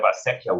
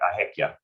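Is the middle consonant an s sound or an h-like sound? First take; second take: s sound; h-like sound. First: The middle consonant is an s sound. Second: The middle consonant is an h-like sound. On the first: This is the standard form. "instead of acequia" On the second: This is the regional New Mexican form. "we replace the C or S sounds with G or J"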